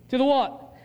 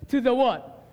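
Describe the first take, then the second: Both takes have the same delivery.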